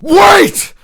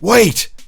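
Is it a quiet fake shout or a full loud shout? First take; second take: loud shout; quiet shout. First: It is a full, loud, real shout. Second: It is a quiet, held-back fake shout.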